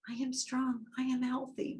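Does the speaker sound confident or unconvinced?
unconvinced. It sounds weak and without conviction.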